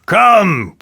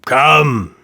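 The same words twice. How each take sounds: First: Sharp, loud and high command; impatient king snapping at the dwarf. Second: Impatient king repeating himself. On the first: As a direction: hurry him up. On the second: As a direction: press on, a little flatter. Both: A narrator's reading. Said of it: "said the king impatiently".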